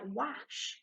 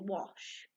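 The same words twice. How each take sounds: First: The vowel sounds like the 'a' in 'cat'. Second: The vowel sounds like the 'o' in 'hot'. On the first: The speaker calls it wrong. "So it'd sound a bit like wash" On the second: The speaker calls it right. "but we know it's actually wash"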